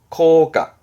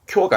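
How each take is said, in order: First: The first syllable is a plain 'ko' sound. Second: The first syllable is a palatal 'kyo' sound. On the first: The speaker calls it right. "학교의 교는 코로 갑니다" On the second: The speaker calls it wrong. "쿄가 아닙니다"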